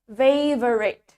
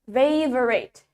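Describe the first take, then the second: First: The word is said with three syllables. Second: The same.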